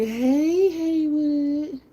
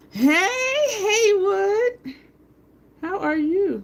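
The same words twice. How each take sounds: First: High, louder sing-song hello; excited greeting. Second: High, loud sing-song hello; excited greeting. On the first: Shown as a demonstration. Explaining to Haywood why she loves greeting him, high and louder. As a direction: show off the fun way she calls his name. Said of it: "so I can just be like". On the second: Real, not acted. Greeting Haywood as he comes into the room, high and loud. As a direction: call out gleefully to a friend walking in.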